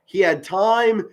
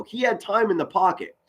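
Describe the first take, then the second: First: "He had time" spaced out slowly, landing on "time"; slow emphatic stress. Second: "had" leaned on with a falling tune; stress on had. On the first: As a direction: drag "He had time" out to drive it home. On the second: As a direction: push the word "had" to make the point. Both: Shown as a demonstration.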